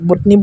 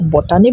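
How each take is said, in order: First: The second syllable has a short reduced vowel. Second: The second syllable has a full 'ah' vowel. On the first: "বটনি বুলি আচলতে প্ৰনাউন্সিয়েচনটো কৰা হয়" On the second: "বটানি বুলি কোৱা হয়"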